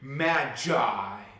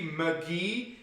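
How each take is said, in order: First: The g is soft, as in 'magician'. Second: The g is hard, as in 'go'. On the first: The speaker calls it right. "As in magician" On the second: The speaker calls it wrong. "It sounds funny and silly if people say McGee"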